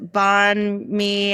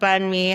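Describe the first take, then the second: First: The first word sounds like 'bond'. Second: The first word sounds like 'bun'. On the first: The speaker calls it wrong. "it would be like this uh, ... you're saying it wrong" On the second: The speaker calls it right. "how it's supposed to sound"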